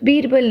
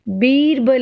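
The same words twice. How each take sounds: First: The first vowel is short. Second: The first vowel is long. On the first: The speaker calls it wrong. "बीरबल नहीं होता" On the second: The speaker calls it right. "ब को बड़ी की मात्रा लगती है"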